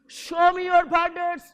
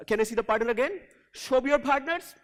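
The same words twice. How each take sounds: First: Louder, higher and slowed; with energy. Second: Said in the usual way. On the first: Shown as a demonstration. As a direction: punch "your" with energy. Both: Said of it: "you got to say with energy".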